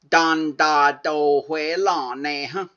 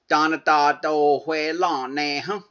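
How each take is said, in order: First: The second syllable is dropped. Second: Every syllable is pronounced in full. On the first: "Most people cut that second syllable" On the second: "Or you could say"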